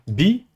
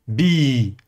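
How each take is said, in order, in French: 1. La voyelle est courte. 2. La voyelle est longue. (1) "au lieu de dire bi" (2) "prolonger le son i"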